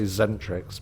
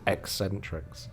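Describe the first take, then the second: First: The name begins with a plain z sound. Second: The name begins with an ex sound. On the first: This is how most people say it. The speaker calls it wrong. "People always say zentrics" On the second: This is how the band itself says it. The speaker calls it right. "if you talk to a band, it's eccentrics"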